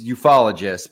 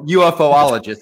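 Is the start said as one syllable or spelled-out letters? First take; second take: one syllable; spelled letters. First: The word begins with a blended 'yoo-fol' sound. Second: The word begins with the letters U-F-O. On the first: "we should call it properly. It's ufologists" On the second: "but you can call it UFOologists if you'd like"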